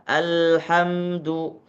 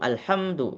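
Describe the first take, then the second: First: The l sound is held for about one beat. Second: The l sound is cut short without holding. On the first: The speaker calls it right. "seakan-akan ada satu ketukan" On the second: The speaker calls it wrong. "Jadi langsung alhamdu enggak salah"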